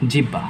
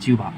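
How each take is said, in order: First: The middle is said with plain h and b. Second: The middle is said as a u and bh. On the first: The speaker does not know the pronunciation rules. The speaker calls it wrong. "মূর্খ-সূর্খ মানুষ, উচ্চারণ-টুচ্চারণ কোনোদিন পড়ে নাই, তারা বলে এটাকে জিহ্বা" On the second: The speaker knows the pronunciation rules. The speaker calls it right. "আমরা যেহেতু জানি, আমরা বলব কি?"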